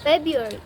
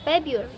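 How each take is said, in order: First: The first R sound is left out. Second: The same.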